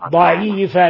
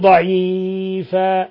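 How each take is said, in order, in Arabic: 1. يُمَدّ حرف المدّ بمقدار طوله الطبيعي. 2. يُمَدّ حرف المدّ مدًّا يتجاوز طوله الطبيعي بكثير. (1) "شوفي ضعيفا" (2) "لا تقولي ضعيفا"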